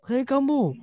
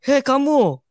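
First: High, sharp mock yell; teacher's shout. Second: High, loud yell of hey you; imitating a yelling kid; shouted call. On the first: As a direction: call out like a teacher catching a kid. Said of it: "terus dia teriak". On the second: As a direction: yell it across the hall. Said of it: "Terus gua teriak".

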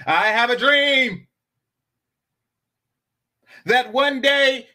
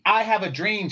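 First: "I have a dream" slow, louder and higher, with long pauses; dramatic speech pause. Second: Said in the usual way. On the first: Shown as a demonstration. Showing the chat perfect pause timing with a famous speech line. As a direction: orate "I have a dream" like a civil rights speech, pausing for effect. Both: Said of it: "For example".

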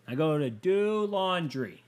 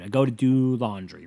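First: Whiny, lingering rise on DO; drawn-out DO. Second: Said in the usual way. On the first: Real, not acted. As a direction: DO stretched long and high. Repeats laundry line, drawn out.

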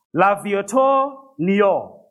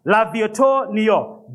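First: Slow, drawn-out French accent on L'Aviator Niort; mock French accent. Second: Second try at French accent. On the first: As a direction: put on a French accent for the car name, slowly. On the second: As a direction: try the French name again with more accent. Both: Shown as a demonstration. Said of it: "let me get that French accent going".

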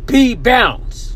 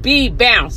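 First: "B" spat out hard and loud; emphasis on the B. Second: "B" punched loud, "bounce" dropping; stress on the B. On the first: Imitating the man who told her to bounce, "B" stressed hard. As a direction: hit the "B" so hard it sprays. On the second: Repeating the man's insult, hard stress on "B". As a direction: land on "B" hard to show the spit. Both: Retold or imitated. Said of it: "Putting the emphasis on the B".

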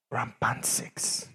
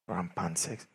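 First: Whispered. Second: Said in the usual way. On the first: Shown as a demonstration. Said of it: "repeated phrase, whispered take". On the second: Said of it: "repeated phrase".

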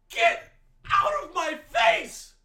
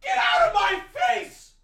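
First: Slower furious repeat; angry shout. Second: Very high screaming yell; furious high shriek; angry shout. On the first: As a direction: drag the repeat out, still yelling. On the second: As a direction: scream it at the screen. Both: Real, not acted. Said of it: "I'm so sorry for getting that angry".

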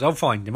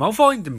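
First: Said in the usual way. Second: Insistent. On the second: Retold or imitated. Barry insists to Iris.

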